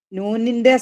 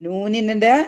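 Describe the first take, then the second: No difference in how they are said.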